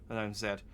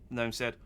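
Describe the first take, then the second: No difference in how they are said.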